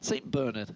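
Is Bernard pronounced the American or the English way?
English. Bernard is said with an English pronunciation. "is the correct term, ladies and gentlemen, if you are from England"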